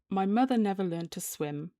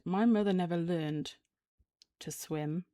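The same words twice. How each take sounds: First: It flows through without a pause after 'learned'. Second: There is a pause after the word 'learned'. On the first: It is a plain statement about swimming. "That's a sentence" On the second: It briefly suggests she never learned other things. "the pause after learned"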